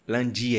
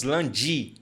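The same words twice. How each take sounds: First: "lundi" as "lan-dee", no DJ sound; correct hard D. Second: "lundi" mispronounced as "lan-djee"; wrong DJ sound. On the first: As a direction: say "lundi" with a clean French D before the i. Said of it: "Olha só a pronúncia do i". ("lundi" correto, com "di" sem chiado) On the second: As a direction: soften the D of "lundi" into a Brazilian "dji". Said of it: "nós não falamos lundi". ("lundi" errado, com "dji" brasileiro) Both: Shown as a demonstration.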